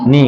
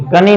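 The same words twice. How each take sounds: First: नी starting straight on the N; silent K. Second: कनी with a K sounded before नी; wrong pronunciation. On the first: Teacher reading K-N-double-E aloud, silent-K नी. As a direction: say नी with no K sound. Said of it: "के के साथ N आ गया". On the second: Teacher warning against a misreading, mispronounced कनी. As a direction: say कनी, voicing the silent K. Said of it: "कनी नहीं बोलेंगे". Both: Shown as a demonstration.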